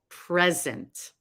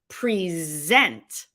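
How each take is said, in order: First: The stress is on the first syllable. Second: The stress is on the second syllable. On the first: It is a noun meaning a gift. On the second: It is a verb meaning to show or offer.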